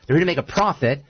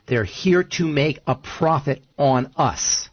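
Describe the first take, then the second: First: Said in the usual way. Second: Slow, deliberate delivery of "They're here to make a profit on us"; slow emphasis. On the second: Shown as a demonstration. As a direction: lay out every word of "here to make a profit" slowly for weight.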